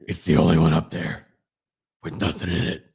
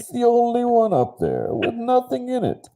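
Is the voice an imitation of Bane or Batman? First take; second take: Batman; Bane. First: It is said in a Batman impression. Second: It is said in a Bane impression.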